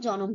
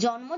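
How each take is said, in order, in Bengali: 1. একটি স্বরধ্বনি দুটি ব্যঞ্জনধ্বনিকে আলাদা করে দেয়। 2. দুটি ব্যঞ্জনধ্বনি একসঙ্গে যুক্তভাবে উচ্চারিত হয়। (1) "ভেঙে উচ্চারণ করা হয়" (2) "যুক্ত বর্ণ"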